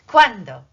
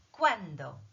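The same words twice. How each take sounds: First: Cuándo said loudly, stress on cuán; cuándo, loud and firm; clear cuándo. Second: Said in the usual way. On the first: Shown as a demonstration. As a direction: belt out cuándo for the class to repeat.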